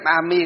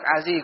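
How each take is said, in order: First: The second syllable begins with an m sound. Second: The second syllable begins with a d sound. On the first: "thích niệm A Mi cũng được" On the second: "A Di cũng được"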